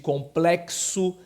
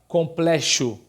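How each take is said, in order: First: The x is pronounced as ks. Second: The x is not pronounced as ks. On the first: The speaker calls it right. "o grupo de fonemas K S" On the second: The speaker calls it wrong. "Ninguém fala complexo"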